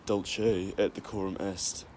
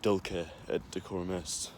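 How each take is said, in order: First: The c in dulce sounds like ch. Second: The c in dulce sounds like k. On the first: "That's the ecclesiastical pronunciation" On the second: "it's not a ch, it's just a k sound"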